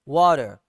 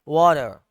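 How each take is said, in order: First: It is said in an American accent, flapped t. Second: It is said in an American accent, flapped t.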